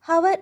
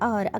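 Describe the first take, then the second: First: The word begins with an audible h sound. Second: The word begins with a vowel, no h. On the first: The speaker calls it wrong. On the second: The speaker calls it right.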